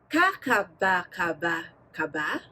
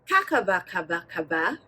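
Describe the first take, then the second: First: The syllables are said at medium speed. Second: The syllables are said fast and fluently.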